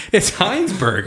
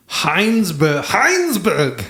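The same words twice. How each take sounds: First: Said in the usual way. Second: Put-on over-the-top German accent. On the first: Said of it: "I had to say it in". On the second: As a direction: Heinsberg in a harsh German accent. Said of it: "I had to say it in, in a very racist German accent".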